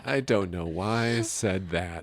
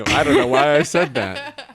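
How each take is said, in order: First: Said in the usual way. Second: Laughing. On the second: Real, not acted.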